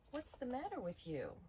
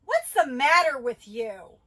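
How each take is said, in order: First: Concerned. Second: Loud, slow, high accusing shout; angry yell. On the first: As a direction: ask it with real concern. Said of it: "So another example might be". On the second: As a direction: bark it out in anger. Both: Shown as a demonstration.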